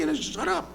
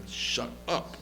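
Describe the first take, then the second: First: Squeaky falsetto shut up; mocking high voice. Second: Whispered shut up; hushed whisper. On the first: Generals telling Golda to shut up, squeaky falsetto. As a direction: squeak it out comically. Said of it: "they went into her office and said". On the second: Retold or imitated. Elazar telling Golda to shut up, whispered. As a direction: hiss it under breath. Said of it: "He said".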